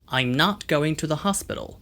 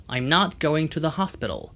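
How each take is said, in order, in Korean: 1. 미국식 억양이며, 열린 'ah' 모음이 특징입니다. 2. 미국식 억양이며, 열린 'ah' 모음이 특징입니다.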